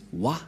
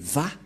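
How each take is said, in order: First: The syllable begins with a w sound. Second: The syllable begins with a v sound. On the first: The speaker calls it wrong. "les gens disent Wa" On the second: The speaker calls it right. "ce n'est pas Wa, la vraie prononciation, mais Va pour les Juifs"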